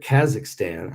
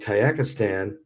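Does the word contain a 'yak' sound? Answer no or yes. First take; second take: no; yes. First: The middle has no 'yak' sound. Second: The middle sounds like 'yak'. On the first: The speaker calls it right. "I said it right that time" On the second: The speaker calls it wrong. "There is no yak"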